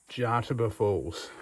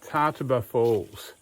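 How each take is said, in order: First: The name begins with a J sound. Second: The name begins with a T sound. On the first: "and the T's silent" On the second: "Pretty sure the J is silent"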